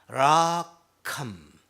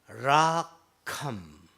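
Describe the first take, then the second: No difference in how they are said.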